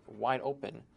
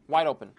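First: Said in the usual way. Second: Louder, punchy reveal of wide open; wide open exclaimed. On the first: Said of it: "So now everyone got terrified". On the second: Retold or imitated. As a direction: announce "Wide open" with a sudden burst of volume. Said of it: "I was like".

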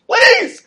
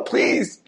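First: A very high, loud begging please; shrieking plea. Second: A breathless voiceless please; whispered plea. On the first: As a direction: scream the last please up high. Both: Retold or imitated. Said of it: "the son is screaming".

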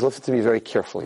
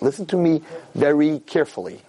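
First: Fast, clipped stern father; a hint of a stern father laying down the law; father's warning, imitated. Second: Slow, deliberate, every word weighted; stern father, slow. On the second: Retold or imitated. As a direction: imitate a father speaking slowly and gravely. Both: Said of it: "This is exactly how he said it".

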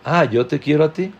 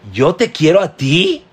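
First: Relaxed offhand "yo te quiero a ti"; casual reading. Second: "te" punched loud and rising in "yo te quiero a ti"; emphatic "yo TE quiero a ti", rising on "te"; stress on TE. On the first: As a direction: read "Ah, yo te quiero a ti" lightly, no word pushed. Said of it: "Y lo puedes leer diciendo". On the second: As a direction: hit "te" hard and lift it, louder than the rest. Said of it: "O lo puedes leer". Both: Shown as a demonstration.

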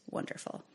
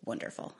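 First: A breathy whispered sarcastic wonderful; whispered sarcasm. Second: A flat, dry sarcastic wonderful, quietly; dry sarcasm. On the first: No helpline answers, whispered bitter sarcasm. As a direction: mutter it under your breath, fed up. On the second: Narrator sees twelve missed calls, dry sarcastic quiet remark. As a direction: roll your eyes at the word. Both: Retold or imitated.

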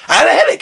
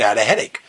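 First: High-pitched mock indignation; indignant protest. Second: Low, soft mumbled excuse; low-key excuse. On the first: Student defending missed morning to Mashgiach, indignant. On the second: Acted. Student questioned by Mashgiach, low sheepish excuse. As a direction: offer the excuse small and low.

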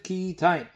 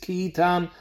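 First: Ki Yitain with an "ain" diphthong at the end; written-form reading. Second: Ki Yitan with a plain "an" at the end; read-aloud form. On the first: Teacher contrasting spelling with reading, Ki Yitain ending in "ain". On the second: Teacher contrasting reading with spelling, Ki Yitan ending in "an". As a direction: end Yitan on open "tahn", no glide. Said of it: "der Kri ist Ki Yitan". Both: Shown as a demonstration.

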